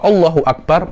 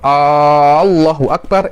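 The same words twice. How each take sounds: First: The first vowel of Allah is short. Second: The first vowel of Allah is drawn out long. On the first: It states that God is the greatest. The speaker calls it right. "mubtada khobar, maknanya kita ini jumlah khobariyah" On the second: It asks whether God is the greatest. The speaker calls it wrong. "itu apakah Allah maha besar? Itu pertanyaan"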